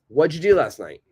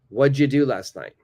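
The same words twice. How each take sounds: First: 'What did you' is run together as one sound. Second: 'What did you' is run together as one sound.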